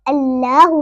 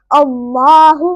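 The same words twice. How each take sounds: First: अल्लाहु with a light, thin laa; wrong thin Allah. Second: Slow अल्लाहु with a dark, rounded laa; full-mouth Allah. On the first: Teacher demonstrates the wrong way, thin अल्लाहु. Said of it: "इस तरह गलत है". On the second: Teacher models the rule for learners, heavy अल्लाहु. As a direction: thicken and lengthen the L of अल्लाहु. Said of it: "पुर पढ़ा जाएगा". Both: Shown as a demonstration.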